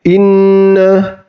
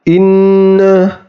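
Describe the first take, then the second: First: The nasal sound is held for one beat. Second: The nasal sound is held for one beat.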